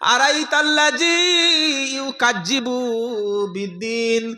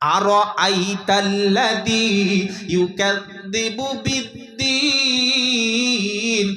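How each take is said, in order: First: The consonant is said as a 'j' sound. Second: The consonant is said as a 'dh' sound. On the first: The meaning of the verse is changed. The speaker calls it wrong. "তুমি কি করছো, কি সর্বনাশ করছো?" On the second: The verse keeps its meaning. The speaker calls it right. "এখানে জাল আছে"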